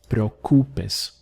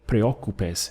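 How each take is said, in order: First: The stress falls on the U syllable. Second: The stress falls on the O syllable. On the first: The speaker calls it right. "the stress has to come under the U" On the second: The speaker calls it wrong. "don't say preocupes and put it over the O"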